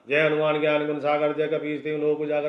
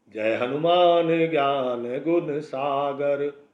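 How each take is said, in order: First: It is recited fast and hurriedly. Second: It is recited slowly and calmly.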